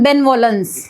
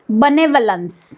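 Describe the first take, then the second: First: The first syllable is a full, clear 'ben'. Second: The first syllable is a weak, reduced 'buh'. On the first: The speaker calls it wrong. "हे बेनवॉलन्स असं न वाचता" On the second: The speaker calls it right. "कसं वाचायचं आहे?"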